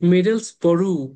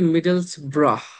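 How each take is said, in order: First: The word ends with an 'oo' sound. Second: The word ends with an 'ah' sound. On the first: The speaker calls it wrong. "যদি থ্রু এর মতন হইতো" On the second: The speaker calls it right. "অ্যাকচুয়াল উচ্চারণ হচ্ছে ব্রাহ"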